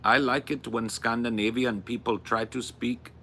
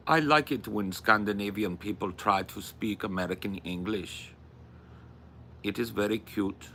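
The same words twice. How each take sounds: First: Put-on second stab at a Scandinavian accent; imitated Scandinavian accent. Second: Put-on wobbly Scandinavian accent drifting toward Indian; attempted Scandinavian-accented English. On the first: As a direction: try English with a Scandinavian lilt. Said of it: "I'll have it in my head". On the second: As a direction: imitate a Scandinavian speaking English. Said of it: "Why are they sounding Indian now?".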